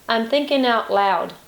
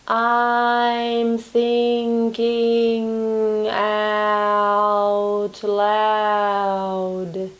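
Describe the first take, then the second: First: It is spoken at a natural, regular speed. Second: It is spoken very slowly, in slow motion.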